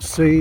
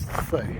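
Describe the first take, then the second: First: The name begins with an s sound. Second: The name begins with a th sound. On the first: The speaker calls it wrong. "It's not C" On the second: The speaker calls it right. "apparently it's Thay"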